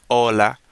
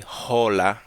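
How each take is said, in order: First: Hola begun straight on the O, like "ola"; silent H in hola. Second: English-style hola with an audible breathy H; H pronounced in hola. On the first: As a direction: drop the H of hola completely. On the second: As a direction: sound the H at the start of hola. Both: Shown as a demonstration. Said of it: "in Spanish the H is in silent".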